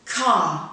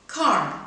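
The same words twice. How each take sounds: First: Car with no R, long ah. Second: Car with a clear final R; American car. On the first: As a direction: say Car the British way, no R. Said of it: "first in received pronunciation". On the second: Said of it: "second in General American". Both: Shown as a demonstration.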